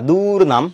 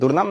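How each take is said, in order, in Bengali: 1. প্রথম স্বরধ্বনিটি লম্বা করে টানা হয়। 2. প্রথম স্বরধ্বনিটি হ্রস্ব রাখা হয়। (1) "আমি বলি না দুর্নাম" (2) "আমি নরমালি উচ্চারণ করি দুর্নাম"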